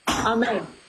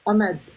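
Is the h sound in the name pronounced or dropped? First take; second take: pronounced; dropped. First: The h sound in the middle is pronounced. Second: The h sound in the middle is dropped.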